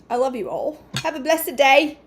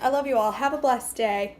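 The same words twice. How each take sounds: First: It is said in a semi-Australian accent. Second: It is said in her normal American accent.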